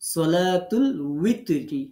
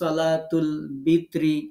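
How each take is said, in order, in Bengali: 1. দ্বিতীয় শব্দটি w ধ্বনি দিয়ে শুরু হয়। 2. দ্বিতীয় শব্দটি b ধ্বনি দিয়ে শুরু হয়। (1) "ওয়াজের উই উই" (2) "ব দিয়ে"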